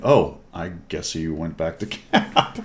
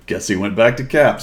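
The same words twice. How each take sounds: First: Breaking into a laugh at the end; slow, amused thought that dissolves into laughter; laughing realisation. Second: Said in the usual way. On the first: Real, not acted. Player recalling where the enemy went, cracking up laughing.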